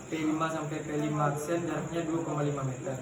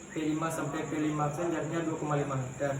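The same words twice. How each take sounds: The two takes are said the same way.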